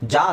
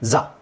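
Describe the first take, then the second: First: The consonant is a hard 'j' sound. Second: The consonant is a soft 'zh' sound. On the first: The speaker calls it wrong. "ಜಾ ಅಲ್ಲ" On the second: The speaker calls it right. "ಈ ಜಾನ ಕರೆಕ್ಟಾಗಿ pronounce ಮಾಡೋಕ್ಕೆ try ಮಾಡಿ"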